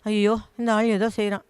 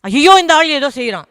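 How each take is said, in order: First: The phrase is said softly and quietly. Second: The phrase is said loudly with a raised voice. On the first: It will not scare anyone off. The speaker calls it wrong. "அப்டின்னா உனக்கு effect இல்ல" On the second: It may make the attacker leave at once. The speaker calls it right. "உயர்த்தி சொன்னா"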